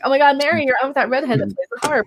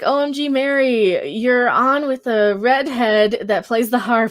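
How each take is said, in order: First: It is read in a Valley Girl voice. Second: It is read in her plain voice.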